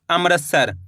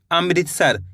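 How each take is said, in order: First: अमृतसर misread as "am-ras-sar"; common mispronunciation. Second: अमृतसर said as "am-rit-sar"; correct pronunciation. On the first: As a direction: say अमृतसर with "ra" in place of "ri". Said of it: "कई लोग क्या पढ़ते हैं?". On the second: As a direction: say अमृतसर with a clear "ri". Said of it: "जबकि होता है". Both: Shown as a demonstration.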